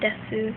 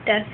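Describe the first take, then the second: First: The word ends with a final vowel. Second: The word ends without a final vowel. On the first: "instead of desu" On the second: "it's usually pronounced like des"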